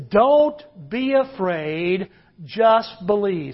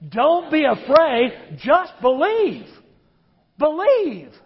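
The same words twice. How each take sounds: First: Slow, drawn-out line for the crowd to repeat; preacher modelling the verse for the congregation, slow; slow demo. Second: Congregation told to say it like they mean it, emphatic; with conviction. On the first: Slow, deliberate modelling. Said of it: "Say that with me". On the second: Say it slowly, like you mean it. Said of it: "Say it like you mean it". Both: Shown as a demonstration.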